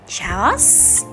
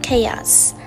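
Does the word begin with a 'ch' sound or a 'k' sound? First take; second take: ch sound; k sound. First: The word begins with a 'ch' sound. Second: The word begins with a 'k' sound. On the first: The speaker calls it wrong. "Rất nhiều người phát âm từ này là chaos" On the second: The speaker calls it right. "cách đọc chuẩn xác nhất của từ này là chaos"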